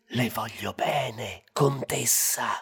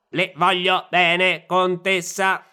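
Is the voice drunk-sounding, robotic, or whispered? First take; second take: whispered; robotic. First: It is whispered. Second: It is said like a robot.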